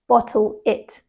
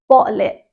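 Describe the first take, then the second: First: The T sounds are pronounced as clear Ts. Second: The T sounds are replaced by glottal stops. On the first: "instead of" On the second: "they would use a glottal stop"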